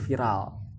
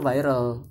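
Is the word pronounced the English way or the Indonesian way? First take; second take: Indonesian; English. First: It is said with an Indonesian pronunciation. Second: It is said with an English pronunciation. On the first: "kalau kita pakai konteks bahasa Indonesia yang virus virtual berarti viral" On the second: "kalau kita pakai konteks bahasa Inggris harusnya viral"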